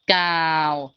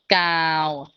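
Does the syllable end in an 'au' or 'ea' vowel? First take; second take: au; au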